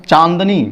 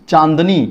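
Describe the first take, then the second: Both takes have the same delivery.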